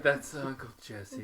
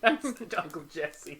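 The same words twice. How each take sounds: First: It is said in a sad, downcast tone. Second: It is said lightly, with laughter.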